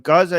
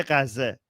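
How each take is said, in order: First: "Gaza" in plain English, hard G, GAH-zah; "Gaza" as an English speaker says it; English pronunciation. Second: "Gaza" said the Persian way, like Ghazze with a final e; "Gaza" pronounced as in Persian, Ghazze; Persian pronunciation. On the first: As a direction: say "Gaza" the standard English way, two open ahs. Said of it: "But Gaza is English". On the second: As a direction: give "Gaza" a Persian sound, ending in eh. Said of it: "in Iran, we say Gaza". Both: Shown as a demonstration.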